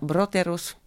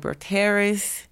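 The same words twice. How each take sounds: First: The name is said with a Finnish pronunciation. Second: The name is said with an American pronunciation. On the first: "En Finlande, je dis [name]" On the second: "Les Américains disent [name]"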